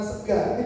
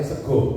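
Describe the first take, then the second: First: The final vowel sounds like a, western style. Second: The final vowel sounds like o, eastern style. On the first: "materi kulonan sega" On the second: "kulino uh, ngucap atau vokalnya sego"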